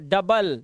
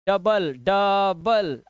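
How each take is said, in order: First: Said in the usual way. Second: डबल stretched out very slowly, each sound held so the आ in the middle is clear; slow spelled-out demo. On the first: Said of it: "ये देखो, डबल". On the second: Shown as a demonstration. Teacher showing students the आ sound, very slow. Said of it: "आ की आवाज़".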